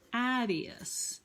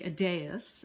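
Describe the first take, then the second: First: The stress is on the first syllable. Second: The stress is on the second syllable. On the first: The speaker calls it wrong. "So I was putting the stress on the first syllable" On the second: The speaker calls it right. "he actually puts the stress um, on the second syllable"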